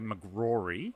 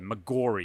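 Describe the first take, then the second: First: An R sound follows the G directly. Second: A vowel follows the G before the R. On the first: The speaker calls it right. "saying my name correctly" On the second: The speaker calls it wrong. "the first R is not there"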